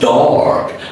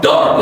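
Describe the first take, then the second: First: The vowel is long and stretched out. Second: The vowel is short and clipped. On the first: The speaker calls it right. "You stretch it" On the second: The speaker calls it wrong. "it's not dark"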